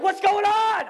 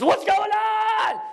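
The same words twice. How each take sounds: First: High, loud alarmed yell; alarmed shout. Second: Drawn-out alarmed shout. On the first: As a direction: burst in yelling the question. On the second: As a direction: drag the shout out slowly. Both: Retold or imitated. Husband bursts in with machete.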